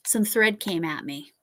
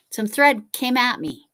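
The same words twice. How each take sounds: First: Said in the usual way. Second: Higher and louder, with stress on thread; emphatic retake. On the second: Shown as a demonstration.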